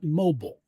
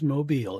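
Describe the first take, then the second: First: It sounds like the word for moving. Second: It sounds like the hanging crib toy. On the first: The speaker calls it wrong. "It is not mobile" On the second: The speaker calls it right. "that's how you pronounce it. It is Mobile"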